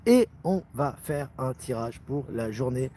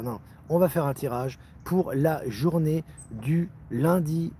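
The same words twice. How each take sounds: First: Slow, even robot voice. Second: Said in the usual way. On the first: Real, not acted. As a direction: speak like a robot, word by word. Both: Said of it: "Je parle comme un robot".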